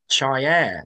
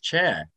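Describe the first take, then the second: First: The name is said the Moroccan way. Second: The name is said the usual English way. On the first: The speaker calls it right. "He's called Chair or something" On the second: The speaker calls it wrong. "he's not called Ilias Chet"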